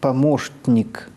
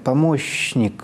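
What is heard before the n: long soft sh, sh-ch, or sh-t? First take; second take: sh-t; long soft sh. First: An sh then a nasally released t precede n. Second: A long soft sh comes before the n. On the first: The speaker calls it right. "«т», которое взрывается в носоглотку, в «н»" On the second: The speaker calls it wrong. "с долгим мягким «ш»"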